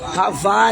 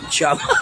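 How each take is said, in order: First: The name begins with an H sound. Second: The name begins with a J sound. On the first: The speaker calls it right. "the correct pronunciation of your uh, uh, ano ng family name" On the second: The speaker calls it wrong. "not Java"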